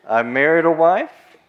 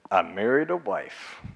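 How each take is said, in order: First: Louder and drawn out, wife rising; emphatic retelling. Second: Said in the usual way. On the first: Retold or imitated. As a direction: lean hard on the excuse, slowly. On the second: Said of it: "another one said".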